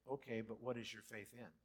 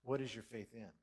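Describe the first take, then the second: First: What leaned on, falling; stress on what. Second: "what" hit harder, falling tune; stress on what again. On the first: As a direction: press what in "what is your faith in". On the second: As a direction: repeat with weight on what. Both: Shown as a demonstration. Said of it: "And I say".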